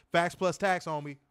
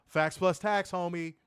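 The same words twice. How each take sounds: The two takes are said the same way.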